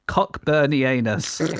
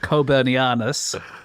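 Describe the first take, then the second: First: The first syllable sounds like 'cock'. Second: The first syllable sounds like 'coe'. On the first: "It's called a Cockburnianus" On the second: "I would pronounce that Coburnianus"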